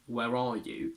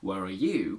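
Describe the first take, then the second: First: The word 'are' is strong and stressed. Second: The word 'you' is stressed; 'are' is weak. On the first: It is a standalone question. "is a standard standalone question" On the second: It contrasts the listener with the speaker. "I've just told you where I am and now I want to know about you"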